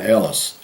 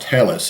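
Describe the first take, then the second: First: The word begins without an h sound. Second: The word begins with an h sound. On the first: The speaker calls it right. "that's the way you pronounce it in German" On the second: The speaker calls it wrong. "it's not pronounced Hellas"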